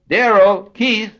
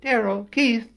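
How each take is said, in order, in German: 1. Die Namen werden laut gerufen. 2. Die Namen werden leise gerufen. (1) "meine Stimme, wie ihr merkt, dringt durch" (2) "sprach viel, viel leiser"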